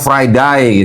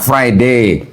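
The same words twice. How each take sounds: First: It is said in an Australian English accent. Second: It is said in a British English accent. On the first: "giliran di Australia ngomongnya" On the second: "orang Inggris ngomongnya"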